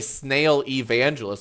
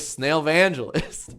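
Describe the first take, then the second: First: The two words are kept apart. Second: The two words are merged into one. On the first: "I don't want to say" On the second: "I'm marrying two words together"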